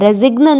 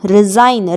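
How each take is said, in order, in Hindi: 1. इस शब्द में g की आवाज़ सुनाई देती है। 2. इस शब्द में g की कोई आवाज़ नहीं सुनाई देती।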